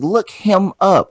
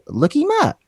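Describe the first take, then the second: First: The h sound in 'him' is pronounced. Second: The h sound in 'him' is dropped. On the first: "It's look him up" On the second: "Why do you say it like that?"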